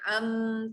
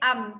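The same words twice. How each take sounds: First: The m is held with a nasal hum. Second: The m is short with no nasal hum. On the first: The speaker calls it wrong. "jangan am, tak ada dengung eh" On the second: The speaker calls it right. "am sahaja"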